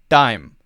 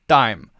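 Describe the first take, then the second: No difference in how they are said.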